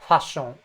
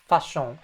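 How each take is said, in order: Both takes have the same delivery.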